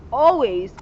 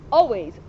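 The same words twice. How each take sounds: The two takes are said the same way.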